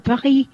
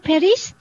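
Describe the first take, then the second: First: It is pronounced the French way. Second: It is pronounced in a non-French way. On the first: "theo kiểu tiếng Pháp mình nói là Paris" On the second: "người khác sẽ nói Paris"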